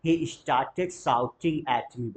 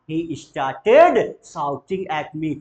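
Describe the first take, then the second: First: Said in the usual way. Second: Louder, slow "He started shouting at me"; emphatic model phrase. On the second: Shown as a demonstration. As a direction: stretch "started", pushing it out. (ज़ोर देकर धीरे "started") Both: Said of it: "बोलेंगे जरा".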